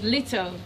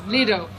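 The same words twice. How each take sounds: First: The middle t is a clear t sound. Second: The middle t sounds like a soft d. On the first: "while the British says" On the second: "the Americans tend to sound the t as d"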